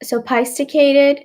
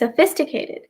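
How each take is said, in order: First: The 'ph' is sounded out as separate p and h. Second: The 'ph' is said as a single f sound. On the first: The speaker calls it wrong. "break up করে বলতে চেষ্টা করেন" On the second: The speaker calls it right. "it's actually sophisticated. P এবং H টা একসাথে make an F sound"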